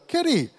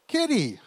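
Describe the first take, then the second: First: Much higher, fuller call of kitty; calling the cat again. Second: High sing-song call of kitty; calling the cat. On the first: Teen son calls the cat right before it walks in. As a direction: sing the name out as the cat comes. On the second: Teen son calls out for the lost cat. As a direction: call the name out toward the door. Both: Retold or imitated.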